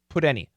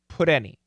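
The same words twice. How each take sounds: First: The T is a very quick flap. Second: The same.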